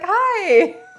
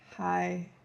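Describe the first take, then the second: First: The greeting sounds bright and cheerful. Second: The greeting sounds flat and tired.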